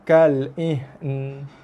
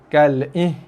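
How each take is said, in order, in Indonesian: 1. N di akhir disambung tanpa vokal. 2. Bunyi n di akhir dihilangkan. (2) "buang nun"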